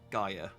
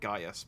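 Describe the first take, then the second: First: The name ends without any S sound. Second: The name ends with an audible S sound. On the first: The speaker calls it right. "but it's Gaia" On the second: The speaker calls it wrong. "So I always pronounce it Gaius"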